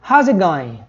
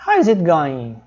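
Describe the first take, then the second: First: "How's" as one syllable, "How" and "is" merged; contracted form. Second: Said in the usual way. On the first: Shown as a demonstration. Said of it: "ó, na forma contraída". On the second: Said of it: "na forma contraída".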